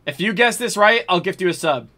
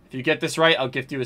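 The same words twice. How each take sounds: First: Excited offer. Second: Said in the usual way. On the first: Real, not acted. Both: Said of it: "same offer repeated".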